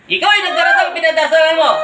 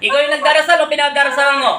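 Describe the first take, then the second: First: Demanding repeat with weight on yung; louder insistent repeat. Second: Said in the usual way. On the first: Real, not acted. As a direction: press the question again, harder. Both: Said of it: "repeated question".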